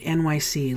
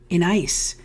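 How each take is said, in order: First: The name is spelled out as three letters. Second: The name is said as one word 'in-ice'. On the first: The speaker calls it right. "that is how you pronounce it" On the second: The speaker calls it wrong. "I've pronounced it every kind of way in my life"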